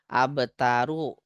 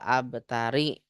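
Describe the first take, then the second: First: The word ends in the vowel u. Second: The word ends in the vowel i. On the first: The speaker calls it right. "ini kenapa dibaca domah?" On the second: The speaker calls it wrong. "Nggak boleh"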